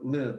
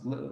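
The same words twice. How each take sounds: First: The L sound is clear, made at the front. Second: The L sound is dark, made deep in the mouth.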